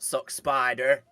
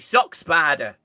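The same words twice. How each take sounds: First: The final r in spider is pronounced. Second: The final r in spider is dropped. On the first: This is not how a northerner says it. The speaker calls it wrong. "not Sock Spider" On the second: This is how a northerner says it. The speaker calls it right. "it should be Sock Spider ... In the north, ours do not exist"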